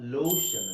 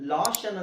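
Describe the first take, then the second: First: The first vowel sounds like a long 'oh'. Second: The first vowel sounds like a short 'ah'. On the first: The speaker calls it right. "ಲೋಷನ್ ಅಂತ ಹೇಳಿ" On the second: The speaker calls it wrong. "ಇದು ಲಾಷನ್ ಅಂತ ಹೇಳಲ್ಲ"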